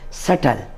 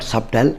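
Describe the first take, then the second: First: The b sound is silent. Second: The b sound is pronounced. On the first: The speaker calls it right. "We should silent B also here, and we should call this subtle" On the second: The speaker calls it wrong. "This is not subtle"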